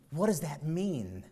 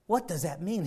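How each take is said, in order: First: Slow, falling question; slow puzzled question. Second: Rising puzzled question. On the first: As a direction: ask it slowly and let it drop. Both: Shown as a demonstration.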